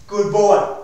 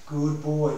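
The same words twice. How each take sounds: First: Put-on louder, punchy Good boy; firm praise. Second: Said in the usual way. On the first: Shown as a demonstration. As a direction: reward the dog out loud. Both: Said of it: "Can you see the correct?".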